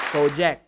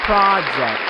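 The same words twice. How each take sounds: First: PRO-ject with an oh vowel; long-o project. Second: PRAH-ject, loud open first vowel; short-o project. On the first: Teacher shows the form to avoid, long-o project. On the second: Teacher models the right form, PRAH-ject. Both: Shown as a demonstration. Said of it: "not project".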